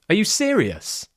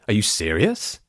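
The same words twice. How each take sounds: First: The voice rises and then falls. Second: The voice falls and then rises. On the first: The speaker is excited by amazing news. "That rise full tone sounds more like, I'm excited" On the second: The speaker is uncertain. "That sounds a bit more like I'm unsure because I'm doing that fall into a rise"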